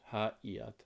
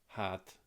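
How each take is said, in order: First: The two words are said separately. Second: The two words merge into one syllable.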